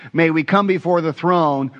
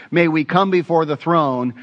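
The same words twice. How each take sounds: The two takes are said the same way.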